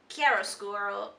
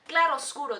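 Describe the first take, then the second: First: The word begins with a 'kya' sound. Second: The word begins with a 'kla' sound.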